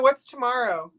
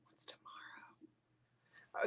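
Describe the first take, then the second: First: Said in the usual way. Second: Slow breathy whisper of "What's tomorrow?". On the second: Acted. Host whispering the question back to herself after asking Deanna, slow whisper. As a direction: drop to a hushed, slow whisper as if sharing a secret.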